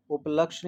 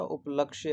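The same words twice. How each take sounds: First: उपलक्ष्य without the final ya; up-LAKSH, stopping on the sh in उपलक्ष्य; wrong pronunciation. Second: उपलक्ष्य with a final -ya; up-LAKSH-ya, the y sounded in उपलक्ष्य; correct pronunciation. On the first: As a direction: show उपलक्ष्य wrongly, dropping the y. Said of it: "उपलक्ष्य नहीं होता". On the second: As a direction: model उपलक्ष्य with its full ending. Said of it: "उपलक्ष्य होता". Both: Shown as a demonstration.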